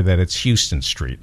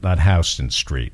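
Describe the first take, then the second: First: Houston as HYOO-ston; Houston said like the Texas city. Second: Houston as HOW-ston; Houston said the New York way. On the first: Dad teaching his kids the wrong way to say the New York street. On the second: Dad contrasting the proper New York way to say the street. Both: Shown as a demonstration. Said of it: "told them that's".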